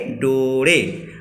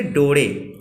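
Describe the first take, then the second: First: डोरे drawn out very slowly, syllable by syllable; slow and careful. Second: Said in the usual way. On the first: Shown as a demonstration. Teacher modelling the Kharia word for students, very slow. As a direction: stretch डोरे out so students can copy it. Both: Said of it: "आ, थोड़ा सा आराम से बोलना है".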